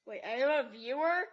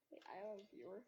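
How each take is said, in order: First: Louder, startled squeal of a question; surprised. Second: Said in the usual way. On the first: Real, not acted. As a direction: caught off guard by a watcher. Suddenly notices a viewer.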